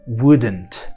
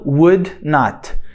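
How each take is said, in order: First: It is said as one contracted word. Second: It is said as two full words. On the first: "se a gente quiser reduzir" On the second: "acrescentar a palavra not"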